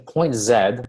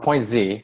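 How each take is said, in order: First: The letter is pronounced 'zed', British style. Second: The letter is pronounced 'zee', American style.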